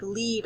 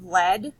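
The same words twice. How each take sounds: First: "lead" pronounced leed, as in leading a horse; long E lead. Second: "lead" pronounced led, like the metal; short E lead. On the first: Teacher giving the verb meaning, "lead" said as leed. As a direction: give "lead" a long E vowel. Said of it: "like lead a horse". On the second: Teacher giving the metal meaning, "lead" said as led. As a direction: rhyme "lead" with bread, short E. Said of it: "if you say it lead". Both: Shown as a demonstration.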